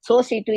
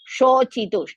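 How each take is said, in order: First: Both consonants are plain 's' sounds. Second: The middle consonant is a 'ch' sound. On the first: The speaker calls it wrong. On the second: The speaker calls it right.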